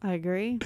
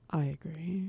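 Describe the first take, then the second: First: Said in the usual way. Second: Low, soft, grave delivery; gravitas voice. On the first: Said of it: "that's more gravitas". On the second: Shown as a demonstration. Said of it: "That's, that's more gravitas".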